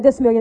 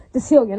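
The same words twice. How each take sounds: First: "decimillion" with an extra mil syllable; mispronounced decillion. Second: "Decillion" without the extra mil syllable; corrected decillion. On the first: Speaker quoting his own slip to reject it, mispronounced "decimillion". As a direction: say it wrongly as "decimillion". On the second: Speaker correcting his slip about the dollars, corrected "Decillion". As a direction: say "Decillion" as de-SILL-yun. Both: Real, not acted. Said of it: "Not decimillion, excuse me, no".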